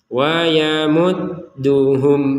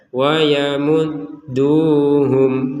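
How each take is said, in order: First: The vowel is kept short. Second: The vowel is drawn out long. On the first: The speaker calls it right. "Langsung saja" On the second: The speaker calls it wrong. "Jangan sampai dibaca"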